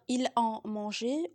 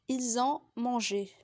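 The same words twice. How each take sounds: First: No z sound links ils to ont. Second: A z sound links ils to ont. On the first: The speaker calls it wrong. "Vous ne pouvez pas dire" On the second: The speaker calls it right. "la liaison est obligatoire entre pronom et verbe"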